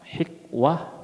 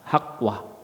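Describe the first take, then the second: First: The first vowel is an 'i' sound. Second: The first vowel is an 'a' sound. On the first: "Bisa dibaca dengan kasrah" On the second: "bisa dibaca dengan fathah"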